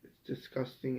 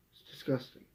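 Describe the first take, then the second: First: Said in the usual way. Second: A hushed, revolted aside; whispered disgust. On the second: Real, not acted. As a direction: whisper it with disgust, under the breath. Repeated line, now whispered.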